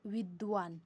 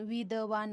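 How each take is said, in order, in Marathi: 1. d आवाज थेट v आवाजात जातो. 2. एक स्वर d आणि v आवाजांना वेगळे करतो. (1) "काय बोलतो विद्वान, कारण द तिथं मोडला जातो" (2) "आपण विदवान असं बोलत नाही"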